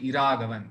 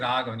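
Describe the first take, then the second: First: The name starts with an added 'i' sound. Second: The name starts directly with a 'ra' sound. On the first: The speaker calls it right. "you have to say Iraghavan" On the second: The speaker calls it wrong. "you will not say Raghavan"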